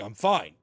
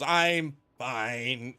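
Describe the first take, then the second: First: It sounds relaxed and genuinely okay. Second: It sounds strained and clearly in pain.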